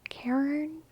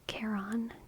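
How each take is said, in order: First: The name sounds like Karen. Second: The name does not sound like Karen. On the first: The speaker calls it wrong. "You say Karen? ... No, I don't like it" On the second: The speaker calls it right. "I've always pronounced it Charon, not Karen"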